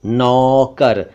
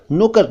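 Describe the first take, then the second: First: नौकर with long open "au"; held "aw" in नौकर; correct नौकर. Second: नौकर with close, short "o"; quick "oh" in नौकर; mispronounced नौकर. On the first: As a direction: say नौकर as "naukar". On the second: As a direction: say नौकर wrongly as "nokar". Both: Shown as a demonstration. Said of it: "नौकर नहीं".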